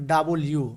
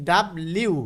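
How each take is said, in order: First: ডাবল ইউ said in full as "double-yu"; careful model of ডাবল ইউ; correct W pronunciation. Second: ডাব্লিউ run together as "dab-liu"; the childhood way of saying W; old schoolbook pronunciation. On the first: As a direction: give ডাবল its own vowel, then ইউ. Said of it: "আসলে এর উচ্চারণ হবে". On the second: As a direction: say ডাব্লিউ with b and l merged. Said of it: "আমরা পড়েছি ডাব্লিউ". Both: Shown as a demonstration.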